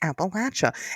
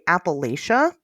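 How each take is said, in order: First: The third syllable sounds like 'latch'. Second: The third syllable sounds like 'lay'. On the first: The speaker calls it right. "It's Appalachia" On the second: The speaker calls it wrong. "if you say Appalachia, I'll throw in Appalachia"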